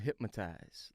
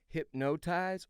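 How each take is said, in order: First: The word is said with an M sound. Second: The word is said without an M sound.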